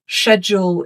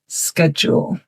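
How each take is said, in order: First: It is said with a British pronunciation. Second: It is said with a North American pronunciation. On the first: "schedule is a British pronunciation" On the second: "In North American English, you will hear schedule"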